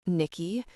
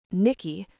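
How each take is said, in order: First: Caress the name Nikki gently. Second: Commanding. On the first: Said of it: "His voice caresses my name". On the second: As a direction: make the name Nikki a command. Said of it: "my name is a command". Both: A narrator's reading.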